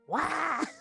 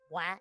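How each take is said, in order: First: It is said loudly with strong emphasis. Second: It is said plainly, without extra force.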